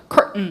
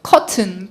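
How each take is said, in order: First: The t is cut off, American style. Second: The t is clearly released, British style. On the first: "끊기는 발음이에요. 미국 애들은" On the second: "curtain은 영국 사람"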